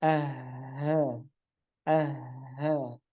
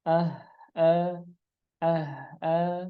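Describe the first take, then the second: First: "ah" ending in open breath, no catch; pure breathy H. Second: "Ah, ah" cut off with a hamzah catch; H ending in glottal stop. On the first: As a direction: let the H trail off in air. ("ah" dengan H murni tanpa hamzah) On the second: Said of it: "ada suara hamzah yang tidak tahu asalnya". ("Ah" diakhiri hamzah) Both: Shown as a demonstration.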